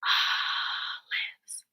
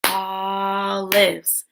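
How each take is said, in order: First: Hushed, voiceless olives, first syllable stretched; whispered olives. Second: Olives voiced in two drawn-out beats; olives split into syllables. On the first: Teacher asking pupils to whisper with her, whispered olives. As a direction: whisper olives in two separate beats. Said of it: "Whisper with me". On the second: Teacher stomping along with pupils, olives split in two. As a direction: stretch the opening of olives, then finish it. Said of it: "Break words into parts". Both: Shown as a demonstration.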